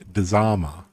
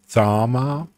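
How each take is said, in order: First: The word begins with a d before the z. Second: The word begins with a plain z sound.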